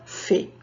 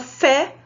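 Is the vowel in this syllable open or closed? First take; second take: closed; open. First: The vowel is said with a closed sound. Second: The vowel is said with an open sound.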